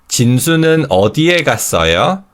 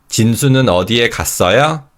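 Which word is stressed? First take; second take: 어디에; 갔어요. First: The stress falls on the question word 어디에. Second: The stress falls on the verb 갔어요. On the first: It asks where the person went. "Where did 진수 go? ... when we stress the W H word, we form W H word questions" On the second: It asks whether the person went anywhere. "Did 진수 go somewhere? ... when we stress the verb, we form a yes or no question"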